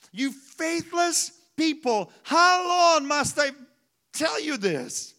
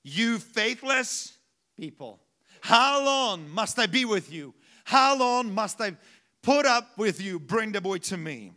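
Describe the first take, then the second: First: Higher, slow, weary exasperation; a higher, drawn-out fed-up rebuke; exasperated Jesus. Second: Angry rebuke. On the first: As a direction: sigh it out like a fed-up parent. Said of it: "It's like you tell your child". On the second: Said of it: "Why did he get angry?". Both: Retold or imitated.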